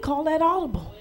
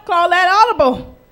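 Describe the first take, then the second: First: Quiet. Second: Loud. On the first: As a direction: call that audible said softly. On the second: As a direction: Call that audible said out loud and firm. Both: Shown as a demonstration. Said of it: "what Pastor Rick taught us".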